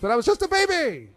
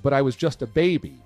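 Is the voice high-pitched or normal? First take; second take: high-pitched; normal. First: The line is said in a high-pitched voice. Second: The line is said in a normal voice.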